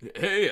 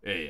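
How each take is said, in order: First: The voice is slightly less raspy. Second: The voice is deep and very raspy. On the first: "Seth Rogen's like" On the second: "Will Arnett's like"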